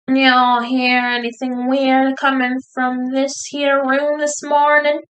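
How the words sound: It is mumbled in a Southern drawl.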